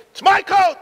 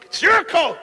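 First: High shouted claim with MY punched hard; mock scream. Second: High shout with YOUR stressed; generous scream. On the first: Son and father fighting over the coat, shouted. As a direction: shout "my" as if grabbing it. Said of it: "Each one was screaming". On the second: Retold or imitated. Son urges the coat on his father, shouting. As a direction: insist loudly that the other take it. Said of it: "the son is screaming".

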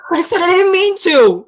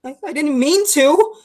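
First: High, loud protest; defensive outburst. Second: Higher, stammered plea; timid excuse. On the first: Younger brother defends himself to older brother, upset shout. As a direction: throw it back at him, upset. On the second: Younger brother answers his angry older brother, timid pleading. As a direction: plead your innocence, faltering. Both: Acted.

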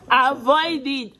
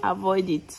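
First: AVOID IT drawn out slowly and higher; emphatic warning. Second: Said in the usual way. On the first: Real, not acted. Mother warning viewers off forced labor, "avoid it" slow and emphatic. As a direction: stretch "avoid it" into a slow, raised-pitch warning.

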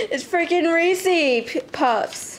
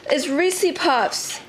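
First: Reese P- cut off before Puffs; stumbled name. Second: It's Reese Puffs drawn out slowly, Reese stressed; slow correction. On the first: Vlogger stumbling over her cereal's name, Reese P- then Puffs. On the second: Vlogger correcting her slip on the cereal name, slow and deliberate. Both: Real, not acted. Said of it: "I was gonna say Reese Peas".

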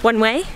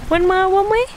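First: Said in the usual way. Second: Much higher, bright sing-song repeat of one way; playful repeat. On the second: Shown as a demonstration. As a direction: toss it off high and teasing.

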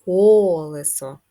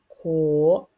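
First: "колесо" with a long, loud "ко"; stress on first syllable. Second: "Колесо" in three separate syllables, ко, ле, со; split into syllables. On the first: Teacher presenting the last word, "колесо" drawn out on "ко". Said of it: "останнє слово в нас". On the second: Teacher dividing a word for children, "Колесо" syllable by syllable. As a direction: break up "Колесо" with gaps, louder. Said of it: "поділимо на склади". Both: Shown as a demonstration.

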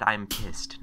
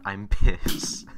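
First: Said in the usual way. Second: I'm pissed drawn out slow and loud; really pissed. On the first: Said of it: "not I'm pissed". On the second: Shown as a demonstration. Showing the viewers what he meant, slow and loud. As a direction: stretch out I'm pissed and lean on it hard. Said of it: "I said I'm pissed".

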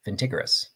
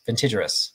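First: "vintigerous" with a hard G, vin-TIG-er-us; hard G mispronunciation. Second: "vintigerous" with a J sound, vin-TIDGE-er-us; soft G pronunciation. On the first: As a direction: say the g in "vintigerous" as in "tiger", trying it out softly. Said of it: "No, it's not Tig". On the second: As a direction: say the g in "vintigerous" as in "vintage". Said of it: "it's not Tig because it's Taj". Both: Shown as a demonstration.

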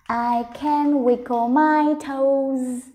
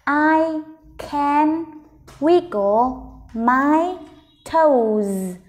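First: "I can wiggle my toes" slow but in one connected run; joined-up slow reading. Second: "I... can... wiggle... my... toes", very slow with pauses; slow, word by word. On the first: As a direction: link the words of "I can wiggle my toes" without breaks, still drawn out. Teacher rereads the sentence joined up. (đọc chậm liền câu "I can wiggle my toes") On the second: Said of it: "Mình đọc chậm từng từ một nào". (đọc chậm từng từ "I can wiggle my toes") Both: Shown as a demonstration.

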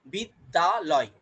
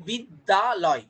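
First: বিদ্যালয় said slowly, each syllable apart. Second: Said in the usual way. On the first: Shown as a demonstration. Teacher to class, sounding out বিদ্যালয় slowly. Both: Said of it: "কটা অক্ষর আছে".

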